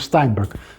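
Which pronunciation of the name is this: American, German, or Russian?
American. The name is said in an American way. "the standard American pronunciation"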